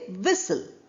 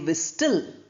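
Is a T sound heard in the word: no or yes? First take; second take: no; yes. First: No T sound is heard after the s. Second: A T sound is heard after the s. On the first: The speaker calls it right. "We say whistle" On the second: The speaker calls it wrong. "We don't say whistle"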